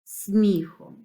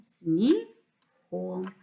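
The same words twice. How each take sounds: First: Said in the usual way. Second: "сміхом" as two pieces, смі, хом; split into syllables. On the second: Shown as a demonstration. Teacher dividing a word for pupils, "сміхом" syllable by syllable. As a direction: pause in the middle of "сміхом", after смі. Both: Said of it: "слова на склади".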